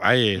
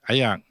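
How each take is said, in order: First: It is said in standard Malay pronunciation. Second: It is said in Kedah dialect pronunciation. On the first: "perkataannya tetap air" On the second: "itu logat je, sebutnya ayak"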